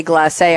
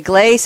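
First: "glacé" with a French accent aigu, the last E sounded as "ay"; "glacé" in French style, final é stressed. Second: "glace" said plainly, one syllable like English "glass" with a long a. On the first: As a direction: give "glacé" a light French lilt, gla-SAY. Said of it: "a little French accent aigu on the last E". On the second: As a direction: say "glace" flat, no French ending. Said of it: "you say glace, I say glacé". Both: Shown as a demonstration.

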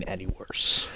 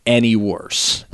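First: Much softer, almost voiceless aside; hushed repeat. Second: Said in the usual way. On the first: Real, not acted. Host underlining a bad debut to his co-host, hushed. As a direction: drop to a near-whisper for emphasis.

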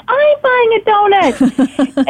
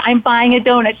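First: High, slow, wide-eyed echo; imitating her friend. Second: Said in the usual way. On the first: Friend also buying a donut, high slow delighted echo. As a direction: stretch it out in delighted agreement. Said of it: "She's like". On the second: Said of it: "But I said".

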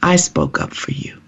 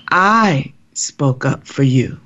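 First: Quiet, slightly softened retelling of a divine reassurance; the Lord's words. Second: Slow, hushed, with a long stressed "I"; the Lord's emphatic repeat. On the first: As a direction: say it gently, after a long pause. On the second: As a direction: draw out "I", pause, then finish slowly and breathily. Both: Retold or imitated. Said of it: "I heard the Lord, Norma, say to me".

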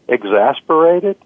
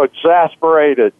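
First: "Exasperated?" with a rising, questioning end; questioning inflection. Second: Said in the usual way. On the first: Shown as a demonstration. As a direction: echo "Exasperated?" back as a one-word question. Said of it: "a questioning inflection". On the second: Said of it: "he says".

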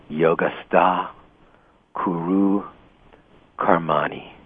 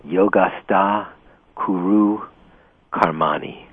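First: "Yogastha kuru karmani" repeated evenly in Sanskrit; Sanskrit recitation. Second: Chanted, "Yogastha kuru karmani" intoned slowly in Sanskrit, each word set apart; chanted, recite "Yogastha kuru karmani" like a sacred verse. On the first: Teacher repeating the verse for students, steady recitation. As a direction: repeat "Yogastha kuru karmani" once more so they catch it. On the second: Chanted, teacher reciting Sanskrit verse to students, slow solemn intoning. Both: Shown as a demonstration. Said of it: "There's an expression in chapter two".

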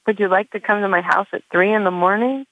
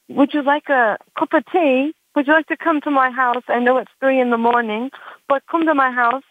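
First: Said in the usual way. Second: Mock English accent, raised pitch. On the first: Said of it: "just a regular person". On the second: English guy inviting her over at three, in an English accent. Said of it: "with the English accent".

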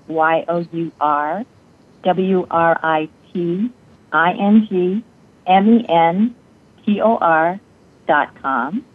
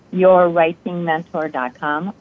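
First: "Y O U R W R I T I N G M E N T O R" said as separate letters, each one paused; spelled out letter by letter. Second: Said in the usual way. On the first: Shown as a demonstration.

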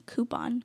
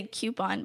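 First: "coupon" said KOO-pon, no y sound; COO-pon pronunciation. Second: "coupon" said KYOO-pon, with a y glide; CUE-pon pronunciation. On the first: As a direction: start "coupon" with a plain koo. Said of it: "I'm finding myself saying coupon". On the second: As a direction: start "coupon" like the word cue. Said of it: "I used to say coupon". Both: Shown as a demonstration.

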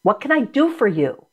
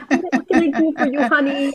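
First: Said in the usual way. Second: Put-on high, quick coaxing voice for a small child; laughing-edged parent voice, higher than usual; talking to a kid. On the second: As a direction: ask it like soothing an upset kid, pitched up. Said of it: "You have to say to the kid".

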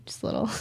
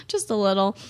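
First: A much softer, almost breathed tease; teasing listener. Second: Laughing echo. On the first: Retold or imitated. Imagined listener teasing [name] about liking country, softly. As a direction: hold it way down, coy. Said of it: "You're like". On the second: Real, not acted. Host echoing the listener's tease, laughing. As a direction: repeat it through a real laugh. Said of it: "repeats own quote laughing".

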